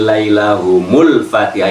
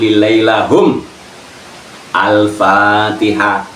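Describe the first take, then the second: First: The words run together with no pause. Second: There is a pause after lahum. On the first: "itu nyambung" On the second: "kalau mau pedot"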